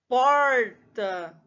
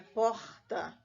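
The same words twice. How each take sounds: First: The R is curled back, retroflex. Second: The R scrapes at the back of the throat. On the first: "um R retroflexo, né? Conhecido também como R caipira" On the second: "outro R que raspa lá do fundo da garganta"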